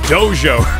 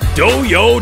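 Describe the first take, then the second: First: The middle consonant is a j-sound. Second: The middle consonant is not a j-sound. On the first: The speaker calls it right. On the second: The speaker calls it wrong.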